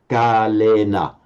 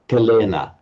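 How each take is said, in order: First: The first vowel is held long. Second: The first vowel is cut short. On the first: The speaker calls it right. "it's a bit unnatural for us to say kalena" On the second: The speaker calls it wrong. "We tend to make it kalena"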